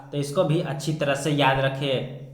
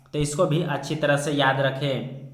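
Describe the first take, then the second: Both takes have the same delivery.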